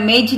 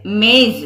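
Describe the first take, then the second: First: मेज said with a plain j, the wrong way; wrong j sound. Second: मेज said ending in a buzzing z; z sound. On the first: Teacher shows students the wrong मेज with a hard j. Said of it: "उच्चारण मेज नहीं है". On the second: Teacher gives the correct मेज ending in z. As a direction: end मेज on a z, not j. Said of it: "उच्चारण मेज नहीं है, मेज है". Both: Shown as a demonstration.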